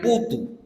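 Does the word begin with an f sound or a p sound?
p sound. It begins with p with no final consonant.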